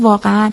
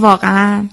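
First: It is said in a surprised, astonished tone. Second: It is said in an affirming, agreeing tone. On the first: The speaker is expressing astonishment. "جای دیگه دارم از تعجب دارم صحبت میکنم" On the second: The listener's statement is being confirmed. "دارم یک جای یک جمله شما رو تصدیق میکنم"

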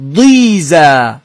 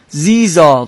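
First: The word begins with a d-like sound. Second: The word begins with a plain z sound. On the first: This follows the letter zād as written. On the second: This is how Persian speakers say it.

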